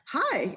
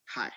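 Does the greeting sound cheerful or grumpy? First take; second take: cheerful; grumpy. First: It sounds cheerful and upbeat. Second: It sounds grumpy and flat.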